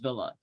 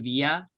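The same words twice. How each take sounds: First: The double L is sounded as an L. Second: The double L is sounded like a Y. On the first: The name is treated as an English team's name. "it's an English team in the English Premier League" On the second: The name is treated as a Spanish-speaking team's name.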